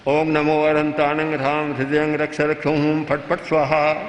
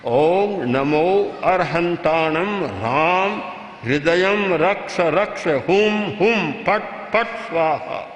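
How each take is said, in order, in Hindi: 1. इसे ढीले-ढाले ढंग से, बिना जोर के बोला जाता है। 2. इसे दृढ़ और प्रबल ऊर्जा के साथ बोला जाता है। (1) "और वही ढीला ढाला किया" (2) "तो एक शक्ति का वलय बनेगा"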